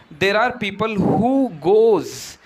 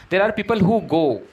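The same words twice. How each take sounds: First: Slow the phrase down to expose "goes"; quoted learner's mistake. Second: "go" said plainly at normal pace, falling; corrected model sentence. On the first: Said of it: "the last one you mentioned". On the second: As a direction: give the correction, landing cleanly on "go". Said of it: "we prefer to use go". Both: Shown as a demonstration.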